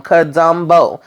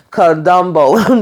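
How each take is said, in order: First: Said in the usual way. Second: Slow, savoured Kadumbo with rising end; drawn-out nickname. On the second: Retold or imitated. Sam mocking Burke, slow drawn-out Kadumbo. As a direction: stretch out Kadumbo like a punchline. Quoting Sam's funny nickname.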